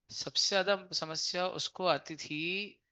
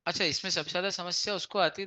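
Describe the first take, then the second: First: Slow, leaning on ज्यादा, rising at the end; slow emphatic repeat. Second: Said in the usual way. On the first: Shown as a demonstration. Teacher repeats the point to students, slow and emphatic. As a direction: spell it out again slowly, ज्यादा stressed. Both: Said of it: "देखो".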